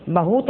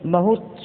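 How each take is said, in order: First: बहुत with a long oo, "bahoot"; mispronounced बहुत. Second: Said in the usual way. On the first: Shown as a demonstration. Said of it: "बहुत अशुद्ध". (बहुत को लंबे ऊ से "बहूत" बोलना) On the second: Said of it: "बहुत शुद्ध".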